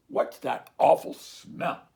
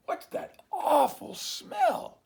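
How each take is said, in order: First: Louder, slow cow grumble; grumbling cows. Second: High, slow, loud squeal of disgust; dog's outraged cry. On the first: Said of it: "they grumbled". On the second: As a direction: bellow your disgust at the stink. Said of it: "he growled". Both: Acted.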